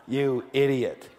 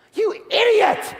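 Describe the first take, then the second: First: Slow, chuckling mock of dad; dad's insult remembered with a laugh. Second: Very high, slow yell at yourself; a furious scream at yourself; self-scolding yell. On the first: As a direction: drawl it through a laugh. Recalling father's verdict. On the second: Retold or imitated. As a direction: shriek it at your own stupidity. Scolding himself over the deal.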